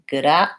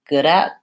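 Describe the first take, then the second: The two takes are said the same way.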